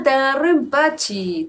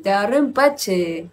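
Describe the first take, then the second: First: Empachi ending in i, the mistaken form; quick slip saying empachi; slip of the tongue. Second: Empache ending in a long e, the fixed form; corrected empache, stretched end; self-correction. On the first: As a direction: trip over empachi. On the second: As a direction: fix it to empache. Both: Real, not acted. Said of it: "Empache, digo".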